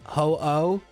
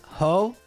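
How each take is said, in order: First: A stop separates the two O sounds. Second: The two O sounds blend into one. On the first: The dash changes how it is said. "that dash stop, I do think is significant" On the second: This is how it would sound without the dash. "like the O's would kind of blend together"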